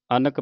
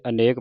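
First: ਅਨਕ with a short middle vowel; correct short-vowel reading. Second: ਅਨੇਕ with a long "ay" in the middle; wrong long-vowel reading. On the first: Teacher correcting the congregation, ਅਨਕ with short middle vowel. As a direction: say ਅਨਕ as "a-nuk". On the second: Teacher quoting the congregation's slip, ਅਨੇਕ with long middle vowel. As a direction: say ਅਨੇਕ as "a-NAYK". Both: Shown as a demonstration. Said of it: "ਅਨਕ ਪੜ੍ਹਨਾ ਹੈ".

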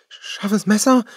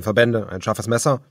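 First: High, loud, startled echo; shocked disbelief at the knife; alarmed cry. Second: Said in the usual way. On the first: A narrator's reading. Bonnie cries out in alarm at the knife. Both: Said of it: "rief Bonnie".

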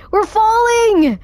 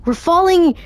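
First: Very high, drawn-out panicked cry. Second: High, worried call; alarmed exclamation. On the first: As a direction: wail it as the fall hits. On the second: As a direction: say it as it starts to sink in. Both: Real, not acted. Repeats in rising alarm.

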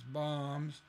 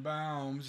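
First: BOMBS with an open AH vowel; "bombs" with a plain AH sound; corrected vowel. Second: BOMBS said with the drawn-out OW vowel of towns; mispronounced vowel. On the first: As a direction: say bombs as "bahmz", not "bowms". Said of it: "it's bombs". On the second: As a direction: rhyme bombs fully with towns, like "bowms". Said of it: "is not bombs". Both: Shown as a demonstration.

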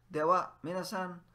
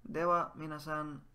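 First: Higher and louder Dewa, minasan; loud sign-off call. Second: Said in the usual way. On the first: Shown as a demonstration. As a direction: call it out brightly. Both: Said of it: "what do we say when we leave?".

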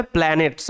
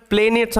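First: "প্ল্যানেটস" said as plæ-nets; short a vowel. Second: "প্ল্যানেটস" said as plei-nets; wrong long vowel. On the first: Teacher giving pupils the pronunciation, "প্ল্যানেটস" as plæ-nets. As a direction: say "প্ল্যানেটস" with the a of plan. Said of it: "এটার উচ্চারণ হবে". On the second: Teacher warning pupils off a misreading, "প্ল্যানেটস" as plei-nets. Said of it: "এটার উচ্চারণটা প্ল্যানেটস হবে না". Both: Shown as a demonstration.

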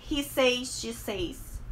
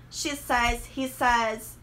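First: "says" as SAYZ, with an AY glide; mispronounced SAYS. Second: "says" as SEZ, with short E; correct SAYS. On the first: Teacher showing what not to say, "says" as SAYZ. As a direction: stretch "says" like "say" plus S. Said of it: "e não". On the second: Teacher modelling he and she forms, "says" as SEZ. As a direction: rhyme "says" with "fez", no AY glide. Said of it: "eu falo". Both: Shown as a demonstration.

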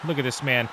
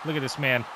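Both takes have the same delivery.

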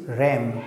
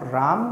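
First: Ram with the "ae" of cat; slow model English ram; correct reading "ram". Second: Ram drawn out as "raam"; slow, mistaken "raam" for ram; wrong reading "raam". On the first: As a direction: say ram slowly, rhyming with "jam". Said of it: "but it is ram". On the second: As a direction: say ram with a long open "aa". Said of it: "It is not ram". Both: Shown as a demonstration.

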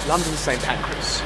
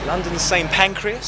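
First: Said in the usual way. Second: A hint of posh British station announcing; mild posh British lilt on the place name. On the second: Shown as a demonstration. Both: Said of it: "Saying that in such a British way".

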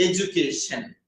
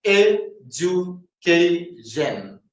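First: Said in the usual way. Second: Education very slowly, in four separate beats; syllable by syllable. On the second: Shown as a demonstration. Teacher showing education has four syllables, syllable by syllable. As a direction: break education into e, ju, kay, shun. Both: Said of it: "നാല് syllable ഉണ്ട്".

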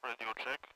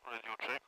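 Both takes have the same delivery.

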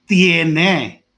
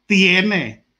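The two takes are said the same way.

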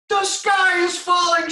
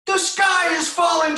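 First: Very high loud slow peep; panicked peep. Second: Very high loud shouted peep; panicked peep. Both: Acted. Reading aloud, the smallest chicken panics at the acorn. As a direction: shriek the alarm like a tiny chick. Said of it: "she peeped".

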